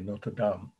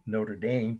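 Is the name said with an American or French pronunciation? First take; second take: French; American. First: It is said the French way. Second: It is said the American, Indiana way.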